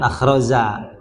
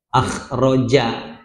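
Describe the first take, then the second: First: The middle consonant is a 'z' sound. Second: The middle consonant is a 'j' sound. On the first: The speaker calls it wrong. "jangan akhroza" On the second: The speaker calls it right.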